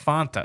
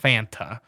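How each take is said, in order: First: The first vowel sounds like the one in want. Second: The first vowel sounds like the one in Atlanta. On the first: The speaker calls it right. "It's Fanta" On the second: The speaker calls it wrong. "not Fanta"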